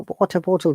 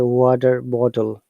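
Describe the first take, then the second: First: The T in water is a strong T. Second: The T in water sounds like D. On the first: "in British English, letter T is always strong" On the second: "T sounds like D"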